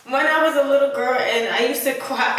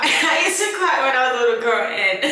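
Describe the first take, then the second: First: Said in the usual way. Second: Real laughter, fast and loud; laughing. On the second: Real, not acted. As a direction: laugh your way through it. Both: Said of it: "I'm laughing because".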